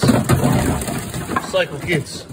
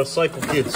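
First: Slow whisper. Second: Said in the usual way. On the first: Shown as a demonstration.

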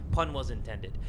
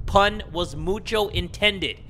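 First: Said in the usual way. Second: "mucho intended" stretched out slowly; slow down and lean on "mucho"; drawn-out emphasis. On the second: Real, not acted. Player owning up to the pun, stretching "mucho" for emphasis. Hams up the repeated admission.

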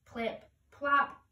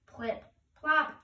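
Both takes have the same delivery.

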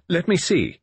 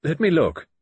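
First: High, loud curt demand; peremptory. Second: High, loud curt command; peremptory. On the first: Narrator demands the field glasses, curt and peremptory. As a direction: snap out an order. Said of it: "My voice was peremptory". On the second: Narrator demands the glasses, curt and peremptory. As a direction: bark an order. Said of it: "I said peremptorily". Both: Acted.

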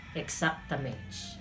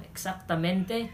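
First: "exactamente" slow and soft, ending in "ch"; softened Portuguese ending. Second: Said in the usual way. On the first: Shown as a demonstration. Teacher contrasting with Spanish, "exactamente" softened to exactamench. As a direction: let "exactamente" melt into a quiet "mench". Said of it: "ginawang Portuguese". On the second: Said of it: "yung salitang exactamente".

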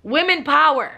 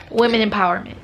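First: Playful slogan cry; mock rally cry. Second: Said in the usual way. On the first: Real, not acted. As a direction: shout it like a rally chant. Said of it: "no, let me stop". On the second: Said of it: "let me stop".

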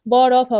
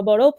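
First: ব, র, ফ loud and separate; letters broken apart. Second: বরফ run together as one word; word blended aloud. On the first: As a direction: sound out ব, র, ফ one at a time. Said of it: "বর্ণগুলো ভেঙে ভেঙে পড়বে". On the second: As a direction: blend the letters into a clear বরফ. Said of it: "শব্দগুলো সুন্দরভাবে জোরে জোরে". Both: Shown as a demonstration.

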